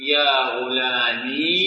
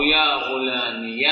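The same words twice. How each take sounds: First: يا غلامي drawn out slowly, ending on a silent final ya; singsong demo of غلامي with sukun on the ya. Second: يا غلامي slowly, ending غلامي with a clear voiced -ya; careful demo of غلامي ending in -ya; with ya carrying fatha. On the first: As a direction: stretch out غلامي and close it on a still ya. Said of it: "بالسكون". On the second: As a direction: open the final ya of غلامي into -ya. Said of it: "بالفتح، واضحة". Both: Shown as a demonstration.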